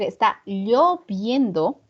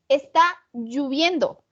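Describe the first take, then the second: First: The vowel after 'll' is clearly o. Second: One vowel in the verb is changed from o. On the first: The speaker calls it right. "tendríamos que decir está lloviendo con O" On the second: The speaker calls it wrong. "como dije mal, alteré una letra"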